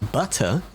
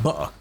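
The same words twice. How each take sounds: First: It is said slowly with a clear t. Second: It is said quickly with the t dropped. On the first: "if you're saying it slowly" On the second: "if you're saying it quickly"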